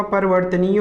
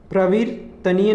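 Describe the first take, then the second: First: परिवर्तनीय starting "par-var"; vowel between p and r in परिवर्तनीय; correct परिवर्तनीय. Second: प्रवर्तनीय starting "pra-vir"; wrong प्रवर्तनीय. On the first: Teacher giving correct form, परिवर्तनीय as "parvartaniy". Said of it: "होगा इसका शुद्ध रूप". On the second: Teacher rejecting the error, प्रवर्तनीय as "pravirtaniy". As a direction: run p and r together in प्रवर्तनीय. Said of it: "नहीं होगा". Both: Shown as a demonstration.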